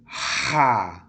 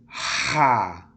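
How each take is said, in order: First: The syllable is said with an a vowel. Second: The same.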